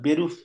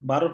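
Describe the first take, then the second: First: The first vowel sounds like an 'e'. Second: The first vowel sounds like an open 'a'. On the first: The speaker calls it right. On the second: The speaker calls it wrong.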